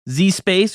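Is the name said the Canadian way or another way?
another way. The name is said in a non-Canadian way.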